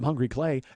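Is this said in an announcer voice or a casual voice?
casual. It is said in a casual speaking voice. The speaker calls it right. "It sounds good like this"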